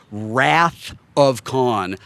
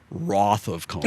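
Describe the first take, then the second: First: Slow, careful Wrath of Khan with wrath said rath; slowly modeling Wrath of Khan with a short a; gentle correction. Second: Wrath of Khan with wrath said rawth; imitating Shatner's Wrath of Khan said rawth. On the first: Retold or imitated. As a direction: spell out wrath gently, rhyming with bath. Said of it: "he gently, he says". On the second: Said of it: "But Shatner is saying".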